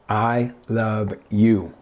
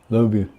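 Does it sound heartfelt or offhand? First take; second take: heartfelt; offhand. First: It is said warmly and with meaning. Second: It is said quickly and casually.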